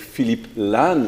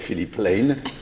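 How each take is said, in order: First: The name is said with a French accent. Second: The name is said with a British accent.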